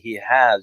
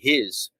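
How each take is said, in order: First: Both words are said in full. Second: The words are contracted into one syllable. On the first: The speaker calls it wrong. "You don't say he has" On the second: The speaker calls it right. "you say his"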